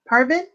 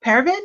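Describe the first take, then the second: First: PARVIN with "par" as in "car", rising; questioning pronunciation. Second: PERVIN with "per" sounding like "pair", rising; questioning pronunciation. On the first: Unsure reader offers the other option, "Parvin" as PAR-vin. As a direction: ask "Parvin?" with an open AR sound in the first syllable. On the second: Unsure reader asks how to say the name, "Pervin" as PAIR-vin. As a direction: ask "Pervin?" with an AIR sound in the first syllable. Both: Shown as a demonstration. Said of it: "how do you say it?".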